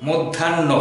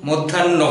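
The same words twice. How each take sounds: No difference in how they are said.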